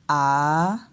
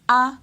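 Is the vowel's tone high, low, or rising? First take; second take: rising; high. First: The vowel dips and then rises in pitch. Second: The vowel is said on a high tone. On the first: "le ton montant ... on descend et après on monte" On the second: "on prononce les voyelles comme ceci ... c'est le ton haut ... l'intonation monte"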